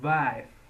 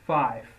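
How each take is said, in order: First: The word begins with a voiced V sound. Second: The word begins with a voiceless F sound. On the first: This is heard in some regions. "in some parts of the Netherlands, of course, sometimes you might hear also" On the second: This is how most speakers say it. "V is pronounced like F"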